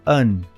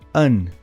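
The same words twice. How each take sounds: The two takes are said the same way.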